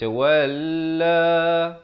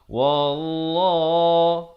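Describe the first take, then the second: First: The L sound is light and thin. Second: The L sound is heavy and thick. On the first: The speaker calls it wrong. "itu nipis" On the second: The speaker calls it right. "lafaz jalalah dibaca tebal"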